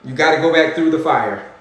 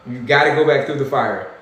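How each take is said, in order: Both takes have the same delivery.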